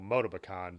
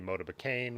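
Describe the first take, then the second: First: The name is pronounced the French way. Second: The name is pronounced the English way. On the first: "I've heard it say by French people" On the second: "obviously a more anglicized pronunciation, the way it looks would be"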